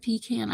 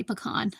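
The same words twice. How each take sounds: First: Pecan said the way her mom from Kentucky says it; mom's pecan. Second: Pecan said her own way, not her mom's Kentucky way. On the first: Contrasting her mom's pecan with her own pecan. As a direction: give pecan her mother's Kentucky pronunciation. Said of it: "I say pecan". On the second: Contrasting her own pecan with her mom's pecan. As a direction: say pecan the way she herself says it. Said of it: "my mom said pecan". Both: Shown as a demonstration.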